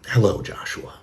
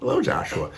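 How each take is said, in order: First: It is said in an angry tone. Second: It is said in a happy tone.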